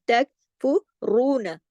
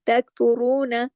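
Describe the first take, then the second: First: तकफ़ुरून with a heavy, thick ra. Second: तकफ़ुरून with the final na not stretched; short final na. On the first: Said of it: "रा को मोटा पढ़ेंगे". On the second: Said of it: "ना को ज्यादा नहीं खींचना". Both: Shown as a demonstration.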